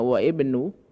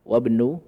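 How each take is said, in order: First: The initial vowel of the second word is pronounced. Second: The words run together without the initial vowel. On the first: "itu harusnya wa ibnu" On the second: "Jadi alif yang kedua ini"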